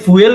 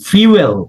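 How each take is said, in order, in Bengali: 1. প্রথম স্বরধ্বনিটি একটি সাধারণ "oo" ধ্বনি। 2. প্রথম স্বরধ্বনিটি একটি "y" গ্লাইড দিয়ে শুরু হয়। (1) "আমরা এটাকে ফুয়েল বলে অভ্যস্ত" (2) "স্পিকিং এর জন্য উচ্চারণটা ঠিক করে নেন"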